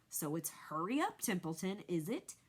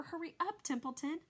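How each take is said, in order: First: Mocking imitation of Wilbur. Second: Much higher, pressing and anxious; urgent plea. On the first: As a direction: parrot him to make fun. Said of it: "He began imitating Wilbur's voice". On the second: A narrator's reading. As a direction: rush him along. Wilbur begs the rat urgently.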